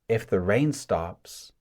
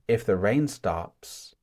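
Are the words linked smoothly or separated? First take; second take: linked; linked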